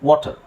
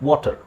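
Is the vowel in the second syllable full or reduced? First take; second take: reduced; reduced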